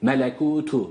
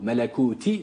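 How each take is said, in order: First: The word ends in a 'u' vowel. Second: The word ends in an 'i' vowel. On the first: The speaker calls it right. "T harfi dammelidir" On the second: The speaker calls it wrong. "değil"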